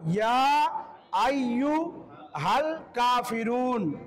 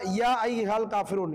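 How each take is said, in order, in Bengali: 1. 'ayyuhal' শব্দের মাঝের 'yu' অংশটি উচ্চারণ করা হয়। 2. 'ayyuhal' শব্দের মাঝের 'yu' অংশটি বাদ যায়। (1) "তো সঠিকটা" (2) "এখানে অনেকের হয়ে যায়"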